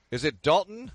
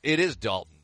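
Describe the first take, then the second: First: Dalton? rising up at the end, unsure; checking the caller's name, asking whether it is Dalton; puzzled question. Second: Host confirms the caller's name, leaning on is; confirming. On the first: A rising Is it Dalton?. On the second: It is Dalton, with is hit and a fall at the end. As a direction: stress on is, falling, settled. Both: Real, not acted. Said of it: "Hang on a second".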